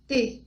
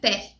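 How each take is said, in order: First: The vowel is closed, like Portuguese ê. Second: The vowel is open, like Portuguese é. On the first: The speaker calls it right. "fechado, som fechado" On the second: The speaker calls it wrong. "não é T"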